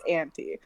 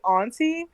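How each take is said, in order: First: It is said the California way. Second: It is said the East Coast way. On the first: "in California it's auntie" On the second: "on the East Coast it would definitely be auntie"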